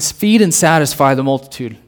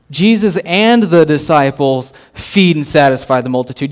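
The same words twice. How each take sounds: First: Said in the usual way. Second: "and" punched, whole phrase spaced out; stress on AND. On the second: Real, not acted. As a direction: lean hard on "and", deliberate delivery. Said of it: "Usually it's Jesus feeds the multitude".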